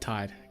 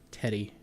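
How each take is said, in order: First: The name is said as one syllable. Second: The name is said with two syllables. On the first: The speaker calls it right. "I don't know why I wasn't reading it like that" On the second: The speaker calls it wrong. "I'm just wanting to make sure I'm pronouncing it"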